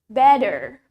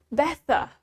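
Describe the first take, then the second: First: It is said in an American accent. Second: It is said in a British accent.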